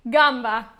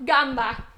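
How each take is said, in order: Both takes have the same delivery.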